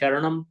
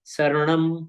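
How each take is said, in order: First: The word begins with an sh sound. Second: The word begins with an s sound. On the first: The speaker calls it wrong. "लोग बोलते चत्तारी शरणम पव्वज्जामि, नहीं, शरणम नहीं" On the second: The speaker calls it right. "प्राकृत में श नहीं है, स ही है"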